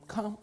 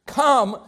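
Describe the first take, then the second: First: Barely voiced, gentle "Come"; a near-silent, tender "Come"; soft invitation. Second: A strong, ringing "Come"; a bold, louder "Come"; firm call. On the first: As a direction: breathe the word "Come" softly. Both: Shown as a demonstration. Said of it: "hardest word in all the gospel".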